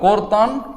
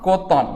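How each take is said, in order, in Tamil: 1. 'th'-க்கு முன் r ஒலி கேட்கிறது. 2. 'th'-க்கு முன் r ஒலி கேட்கவில்லை. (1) "இது பேச்சு வழக்கு" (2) "இது எழுத்து வழக்கு"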